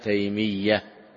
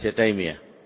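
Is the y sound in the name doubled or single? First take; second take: doubled; single. First: The y sound is doubled, held longer. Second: The y sound is single, not held. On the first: The speaker calls it right. "صحيح أنه بتشديد الياء تيمية" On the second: The speaker calls it wrong. "وليس تيمية"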